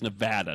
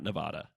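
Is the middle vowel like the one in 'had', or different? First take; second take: like had; different. First: The middle vowel sounds like the one in 'had'. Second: The middle vowel differs from the one in 'had'. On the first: The speaker calls it right. "It is Nevada, the vowel sounds line up there" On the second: The speaker calls it wrong. "not Nevada"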